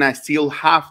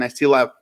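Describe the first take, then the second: First: The h at the start of have is pronounced. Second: The h at the start of have is dropped. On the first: This is the older form people no longer use. "Ya no dicen I still have" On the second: This is how people say it now. "dicen I still have"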